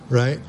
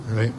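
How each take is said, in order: No difference in how they are said.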